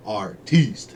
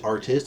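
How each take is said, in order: First: "Artiste" with stress on the long final "teest"; French-style pronunciation. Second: Said in the usual way. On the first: Retold or imitated. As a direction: say "Artiste" as ar-TEEST, mock-fancy. Playfully re-pronounces artist as artiste.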